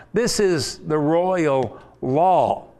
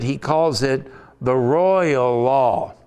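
First: Slow, weighty "This is the royal law", each word set apart; slow, solemn "This is the royal law"; stress on royal. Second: Royal said slowly and leaned on; slow, weighty "royal law"; stress on royal. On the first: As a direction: proclaim "royal law" slowly with gravity. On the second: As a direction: lean into "royal" slowly, savouring it. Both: Shown as a demonstration. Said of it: "I want to emphasize the word royal".

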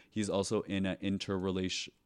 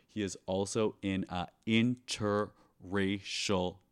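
First: Stumbling into "interrelation-" and breaking off; tongue-tied slip. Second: "interracial" said slowly and deliberately; slow down and land "interracial" cleanly; careful retake. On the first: Flubbing the word while introducing the guest, tongue-tied. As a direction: trip over "interrelation-" instead of interracial. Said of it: "okay, let's try this again". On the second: Retrying the guest intro after a flub, careful and slow. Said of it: "let's try this again". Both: Real, not acted.

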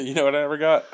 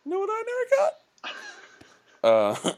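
First: "you know what I never got?" said quickly and fairly flat; plain. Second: "You know what I never got?" with a big rising question lift; uptalk. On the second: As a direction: ask "You know what I never got?" with the pitch climbing high at the end. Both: Shown as a demonstration. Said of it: "say it with the upward inflection".

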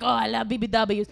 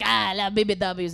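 First: Rough mock Italian accent; loosely done Italian accent. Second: Badly faked French accent, louder; rough mock French accent. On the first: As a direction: imitate an eager Italian guy. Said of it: "I was with this Italian guy". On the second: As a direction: imitate a French dude, not very well. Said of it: "He was French".

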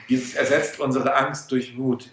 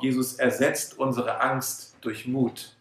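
First: Said in the usual way. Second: Slow and softer, paced for note-taking; slow dictation. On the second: Shown as a demonstration. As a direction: dictate it so they can write it down. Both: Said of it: "schreibt euch das auf".

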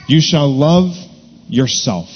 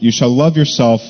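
First: Pause, then lean on "yourself"; stress on yourself. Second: Said in the usual way. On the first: Shown as a demonstration. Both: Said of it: "emphasize the last phrase".

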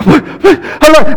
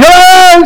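First: High, light hello, still calm; light calling. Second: Much higher, louder yelled hello; panicked yell. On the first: Dad first calling for his missing son, light and high. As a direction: call out lightly before the panic sets in. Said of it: "your heart starts going". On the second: Dad yelling for his lost son in the store, panicked shout. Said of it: "and then you start yelling". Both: Retold or imitated.

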